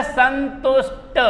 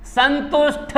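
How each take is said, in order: First: संतुष्ट slowly, with unaspirated T; correct form. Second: संतुष्ट ending in aspirated THa; wrong form. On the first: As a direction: split संतुष्ट, finishing on a plain Ta. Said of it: "संतुष्ट होता है". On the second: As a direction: cite संतुष्ट as "santush-THa". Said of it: "संतुष्ट नहीं होता है". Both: Shown as a demonstration.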